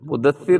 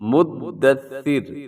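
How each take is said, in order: First: The d is short, not doubled. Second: The d is held long and doubled. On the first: The speaker calls it wrong. "मुदस्सिर नहीं है" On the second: The speaker calls it right. "बल्कि मुद्दस्सिर"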